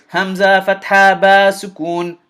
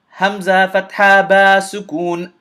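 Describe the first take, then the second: Both takes have the same delivery.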